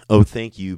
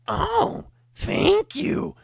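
First: It is said in a normal voice. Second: It is said in a gremlin-like voice.

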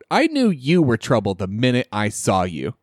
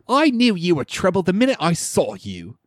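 First: It is said in the speaker's ordinary accent. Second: It is said in a put-on British accent.

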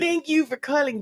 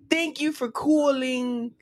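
First: It is spoken in a Minnesotan accent. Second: It is spoken in a New York accent. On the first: "Let's do the Minnesota" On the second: "Do a New York accent"

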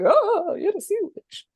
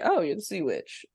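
First: It is said with a frightened tone. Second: It is said casually, without fear.

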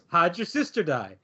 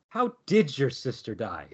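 First: The word 'did' is reduced into 'how'd'. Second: The word 'did' is stressed.

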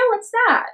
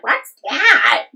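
First: It sounds gentle and curious. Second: It sounds harsh and confrontational. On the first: The speaker simply wants to know what it is. "in, like, a peaceful... Like a curious" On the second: The speaker disapproves of the thing.

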